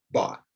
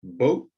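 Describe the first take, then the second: First: Bought said short with an open ah; model word. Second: Boat low and firm with a rise; model word. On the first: Teacher contrasts bought with boat. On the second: Teacher contrasts boat with bought. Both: Shown as a demonstration. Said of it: "say that one more time".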